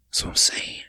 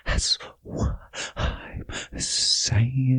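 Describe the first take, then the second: First: Breathy whisper of agreement. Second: Stretched-out whisper, each word drawn long; slow whisper. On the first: Host whispering agreement to his co-host. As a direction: whisper it like a secret. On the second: Host whispering agreement again, slow and drawn out. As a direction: let the whisper drag out slowly. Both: Real, not acted.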